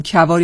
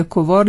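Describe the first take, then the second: First: "کوار" said as "Kavar"; first vowel of "کوار" as in "Kavar"; pronounced with fatha. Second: "کوار" said as "Kovar"; first vowel of "کوار" as in "Kovar"; pronounced with zamme. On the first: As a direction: say "کوار" with a short "a" after the k. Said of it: "با فتحه بخونیم". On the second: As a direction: say "کوار" with a short "o" after the k. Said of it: "یا با ضمه". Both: Shown as a demonstration.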